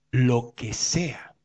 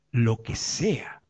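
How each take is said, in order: First: "lo que sea" said slowly and much softer; slow soft emphasis. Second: Said in the usual way. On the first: Acted. Preacher repeats "lo que sea" slowly and softly to the congregation.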